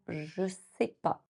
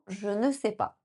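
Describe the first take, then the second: First: The ne is dropped, leaving three syllables. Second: Every syllable is said in full, including ne.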